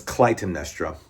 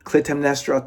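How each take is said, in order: First: Clytemnestra with a long i, "kly-" as in "eye"; correct pronunciation. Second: Clytemnestra said with a short i, "klit-"; mistaken pronunciation. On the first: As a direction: say Clytemnestra starting "klai-", lower. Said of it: "but it's Clytemnestra". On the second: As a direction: say Clytemnestra starting like "clit". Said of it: "sometimes I would say clit". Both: Shown as a demonstration.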